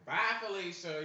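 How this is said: It is said in a big, exaggerated way.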